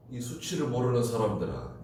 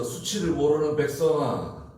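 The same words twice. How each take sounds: First: Said in the usual way. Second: "수치를 모르는 백성아" raised and louder, stress on 모르는, falling at the end; quoted rebuke. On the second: Shown as a demonstration. Pastor quoting God's rebuke to Judah, raised and stern. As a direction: call out "모르는" like the prophet's rebuke. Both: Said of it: "이 장 일 절에서".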